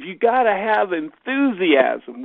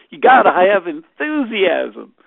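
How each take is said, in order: First: Put-on lightly Southern accent, slow and emphatic. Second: Big, booming Southern drawl; Southern accent. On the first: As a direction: imitate a Southern speaker, louder and higher. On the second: Retold or imitated. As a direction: belt it out slowly like a rousing Southerner. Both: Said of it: "with his Southern accent".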